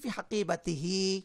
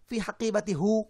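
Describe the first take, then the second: First: The final pronoun is said with an i vowel. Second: The final pronoun is said with a u vowel. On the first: The speaker calls it right. "হাকিবাতির সঙ্গে হি বলাটা সহজ" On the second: The speaker calls it wrong. "আর হাকিবাতির পরে যদি আমি হু বলি কেমন লাগে শোনেন তো?"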